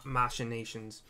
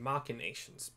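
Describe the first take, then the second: First: The 'ch' sounds like 'sh', as in machine. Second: The 'ch' sounds like 'k', as in machina. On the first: Someone else said it this way. "I heard on a podcast somebody use the word" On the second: This is how the speaker has always said it. "I've always pronounced it machinations because it's like mach- or machina"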